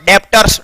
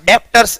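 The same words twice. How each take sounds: First: A b sound is heard before the t. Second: A b sound is heard before the t.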